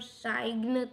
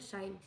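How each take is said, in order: First: The g is pronounced. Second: The g is not pronounced. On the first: The speaker calls it wrong. "हम साइन तो नहीं बोलते" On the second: The speaker calls it right. "हम बोलते हैं साइन"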